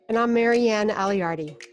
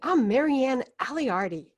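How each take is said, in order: First: It is said in a plain, ordinary way. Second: It is said with lively, enthusiastic energy.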